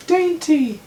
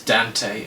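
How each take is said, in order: First: "Dainty" said with an AIN sound in high falsetto; "Dainty" in a piercing put-on high voice; Dante misread as Dainty. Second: "Dante" said DAN-tay, in the usual pitch; "Dante" ending in a clear TAY; corrected pronunciation. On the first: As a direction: squeak "Dainty" loudly, misreading the name. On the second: Acted. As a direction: correct the name to "Dante" with a short A. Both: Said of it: "It is Dante, actually".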